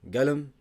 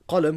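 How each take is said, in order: First: The word begins with a hard g sound. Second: The word begins with a deep q sound. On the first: This is the Saudi dialect form. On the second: This is the standard form.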